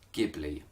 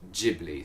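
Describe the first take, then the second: First: The word begins with a hard G sound. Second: The word begins with a soft G sound. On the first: This is the original Italian and Arabic form. "with a hard G" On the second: This is the Japanese form. "the Japanese pronunciation is most definitely Ghibli"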